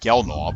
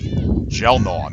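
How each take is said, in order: First: The name begins with a hard G sound. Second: The name begins with a J sound. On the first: The speaker calls it wrong. "not Gelnaw" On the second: The speaker calls it right. "pronounced like a J"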